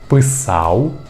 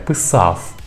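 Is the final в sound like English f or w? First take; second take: w; f. First: The final в sounds like a short w glide. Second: The final в sounds like a voiceless f. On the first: The speaker calls it right. "вимовляємо її як «в»" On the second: The speaker calls it wrong. "не"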